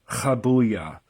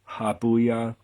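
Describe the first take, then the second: First: It starts with a rough H from the throat. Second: It starts with a plain, light H sound. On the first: "the proper pronunciation is Chabuya" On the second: "you can just pronounce it like the letter H"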